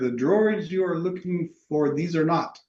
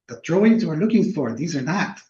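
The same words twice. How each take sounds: First: It is said in a normal voice. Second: It is said in a put-on Yoda voice.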